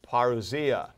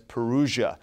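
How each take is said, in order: First: The word is said with its Greek pronunciation. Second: The word is said with an anglicized pronunciation. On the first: The speaker calls it right. "the term we use for this is parousia" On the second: The speaker calls it wrong. "I've heard some English speakers pronounce this as Perusia"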